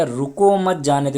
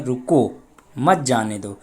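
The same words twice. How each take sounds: First: रुको मत run together, louder; no pause after रुको. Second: रुको set apart, then मत जाने दो together; pause after रुको. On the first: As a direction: join रुको straight onto मत, stretched and loud. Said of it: "हटा देते हैं हम सकते को". (रुको मत बिना ठहराव, ज़ोर से) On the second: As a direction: stop after रुको, then run मत जाने दो as one phrase. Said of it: "सकता लगा देते हैं". (रुको के बाद ठहराव) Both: Shown as a demonstration.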